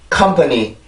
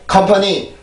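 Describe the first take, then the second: First: "컴퍼니" as English company, strong first syllable, lighter tail; riding the rhythm. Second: "컴퍼니" in Korean-style syllables, dropped without rhythm; abruptly dropping. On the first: Teacher models correct English rhythm for learners, riding the rhythm. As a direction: bounce through "컴퍼니" from a hard K. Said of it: "이렇게 리듬을 타기 때문에". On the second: Teacher shows learners the wrong rhythm, abruptly dropping. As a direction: say "컴퍼니" evenly, then let it plunge. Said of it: "이렇게 뚝 떨어지는 게 아니고". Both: Shown as a demonstration.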